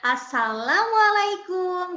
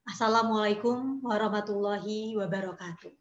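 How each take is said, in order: First: It is said in a natural, cheerful everyday voice. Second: It is said in a serious poetry-reading voice.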